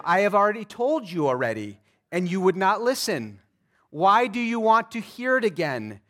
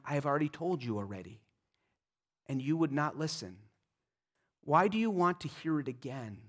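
First: Louder, exasperated sarcastic retort; sarcastic reply. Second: Softer, fast, offhand sarcastic reply; dry sarcasm. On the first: Healed man retorting to the Pharisees, loud and sarcastic. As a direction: throw it back at them, fed up. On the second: Healed man brushing off the Pharisees, soft and fast. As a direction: toss it off under your breath. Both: Acted. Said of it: "See the sarcasm, the irony".

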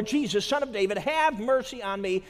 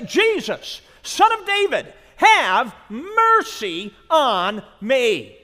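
First: Said in the usual way. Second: Loud, high desperate plea; crying out. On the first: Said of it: "he cries out all the more". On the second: Acted. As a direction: cry out to him from the roadside. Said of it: "he began to cry out and say".

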